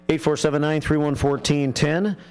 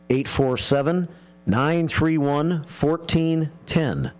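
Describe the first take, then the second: First: The number is read quickly. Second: The number is read slowly. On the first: The speaker calls it wrong. "I said that kind of fast" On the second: The speaker calls it right. "I should say that slower"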